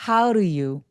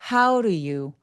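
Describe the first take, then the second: First: The words run together with a soft, blurred d. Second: The same.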